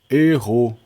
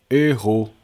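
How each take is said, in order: The two takes are said the same way.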